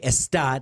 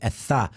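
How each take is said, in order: First: The s is a plain hissed s sound. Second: The s is lisped as a th sound. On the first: "they could not say" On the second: "they had to say"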